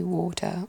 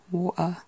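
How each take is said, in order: First: "water" as WAW-tuh with a clear t; English pronunciation. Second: "water" as WAW-uh with a glottal stop; dropped T. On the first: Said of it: "in England it tends to just be". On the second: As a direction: drop the t in "water". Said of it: "water or water". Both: Shown as a demonstration.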